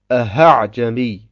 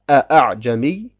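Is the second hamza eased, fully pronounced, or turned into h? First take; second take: turned into h; fully pronounced. First: The second hamza is turned into an h. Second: The second hamza is fully pronounced. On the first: "in ein Ha umwandelt" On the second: "dass man die Hamza ausspricht"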